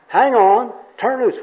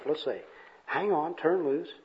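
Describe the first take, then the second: First: Loud, high confused echo; acted exasperated confusion; baffled repeating. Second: Soft puzzled mutter; quiet, bemused self-talk; mumbling to himself. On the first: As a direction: throw the muddled advice back loudly. Confused bum repeats worker's advice. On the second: Acted. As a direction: mull it over under your breath. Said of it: "he's mumbling to himself".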